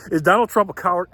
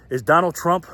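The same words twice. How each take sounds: First: Said in the usual way. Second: Starting the question but breaking into laughter; words slipping into a real laugh; laughing while asking. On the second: Real, not acted. Host asks viewers, can't hold back laughter. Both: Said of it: "I can't even say it without laughing".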